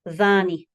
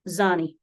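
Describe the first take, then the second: First: The word begins with a voiced th sound. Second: The word begins with a z sound. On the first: This is the sound borrowed from Arabic. "like the T H that is voiced in English" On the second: This is how people inland say it. "pronounce the D H with a Z sound"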